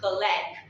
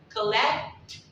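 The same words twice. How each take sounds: First: The final T sound is dropped. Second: The final T sound is clearly pronounced. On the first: The speaker calls it right. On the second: The speaker calls it wrong.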